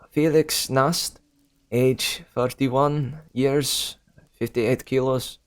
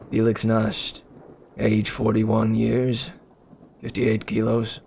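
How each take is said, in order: First: It is spoken with a Russian accent. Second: It is spoken with a neutral accent. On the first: "I'm giving them Russian accents when they should be German" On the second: "I'm gonna just go with, with normal accents"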